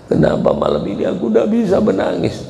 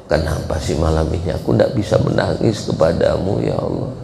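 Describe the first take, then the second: First: Turning tearful. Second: Said in the usual way. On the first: Shown as a demonstration. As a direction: pitch climbing high into a mock cry. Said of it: "Tahu-tahu menangis". (pura-pura mulai menangis, suara meninggi) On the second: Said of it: "Kau tanya sama Allah".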